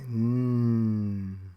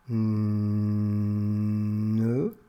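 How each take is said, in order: First: The consonant is said alone without a vowel. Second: The consonant is followed by a short vowel. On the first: The speaker calls it right. "mais n" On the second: The speaker calls it wrong. "On ne dit pas ne"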